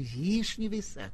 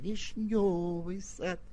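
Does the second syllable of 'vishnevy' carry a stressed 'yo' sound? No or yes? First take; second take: No; Yes. First: The second syllable has no stressed 'yo' sound. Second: The second syllable has a stressed 'yo' sound. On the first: The speaker calls it wrong. "не «Вишневый сад»" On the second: The speaker calls it right. "напирая на нежный звук «ё» в слове «вишневый»"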